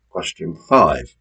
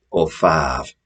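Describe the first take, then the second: First: Said in the usual way. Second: Five said the Hull way as in Hull, a light Hull vowel on five; Hull accent. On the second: Shown as a demonstration. Quizmaster teasing Hull players, light Hull accent. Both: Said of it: "if you come from Hull".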